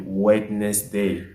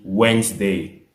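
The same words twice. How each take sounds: First: Wednesday with every letter said, wed-nes-day; wrong spelling pronunciation. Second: Wednesday said slowly as wensday, middle letters silent; correct pronunciation. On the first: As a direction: read Wednesday as spelled, all letters sounded. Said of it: "si on veut lire avec toutes les lettres". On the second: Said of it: "le mot se lit". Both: Shown as a demonstration.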